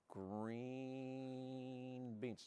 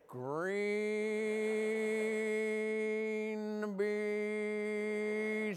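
First: It is said at a fairly quick pace. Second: It is said very slowly, drawn out.

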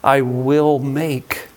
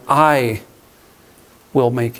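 First: The word "make" carries the stress. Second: The word "I" carries the stress. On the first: The listeners will be turned into something they are not yet. "This is not what you are now" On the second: The speaker alone will be the one who does it. "This is my work. This is my business"

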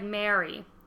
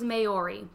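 First: The word sounds like 'Mary'. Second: The word sounds like 'Mow-ree'. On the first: The speaker calls it right. "So it's like Mary" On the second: The speaker calls it wrong. "So I used to think it was Maori"

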